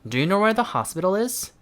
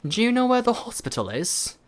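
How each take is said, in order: First: It is said in an American accent. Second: It is said in a British accent. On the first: "다시 한번 미국" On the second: "영국 해보면은"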